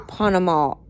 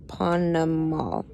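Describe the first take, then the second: First: Said in the usual way. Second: Panamal said slowly and clearly, each syllable apart, softer; careful name. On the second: Shown as a demonstration. Mother repeats Panamal slowly so the child learns it. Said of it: "Her name was Panamal".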